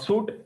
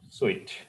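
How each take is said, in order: First: The word sounds like the word suit. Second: The word sounds different from the word suit. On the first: The speaker calls it wrong. "Not suit" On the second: The speaker calls it right. "It is suite"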